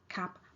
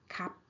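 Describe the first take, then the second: Both takes have the same delivery.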